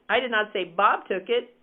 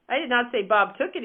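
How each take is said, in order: First: The stress is on "Bob". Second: The stress is on "took".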